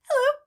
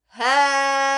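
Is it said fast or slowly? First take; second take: fast; slowly. First: It is said very fast. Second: It is said very slowly.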